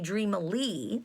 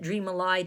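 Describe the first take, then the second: First: The ending does not rhyme with 'sky'. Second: The ending rhymes with 'sky'. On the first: This is how the word normally sounds. "it should be dreamily to our ears" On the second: It is bent to make the rhyme work. "we pronounce it dreamily to get the rhyme"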